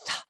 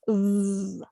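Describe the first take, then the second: First: The th sound is quiet, without voice. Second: The th sound is noisy, with voice. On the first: "an unvoiced or a quiet sound" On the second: "a voiced or a noisy sound"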